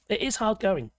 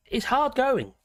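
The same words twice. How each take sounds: First: "is" stressed, as a firm confirmation. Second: Said in the usual way. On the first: Real, not acted. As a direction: lean on "is" in "it is hard going". Repeats line, adding emphasis on is.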